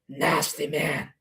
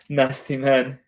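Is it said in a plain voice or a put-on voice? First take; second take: put-on; plain. First: It is said in an exaggerated, put-on voice. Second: It is said in a plain, ordinary voice.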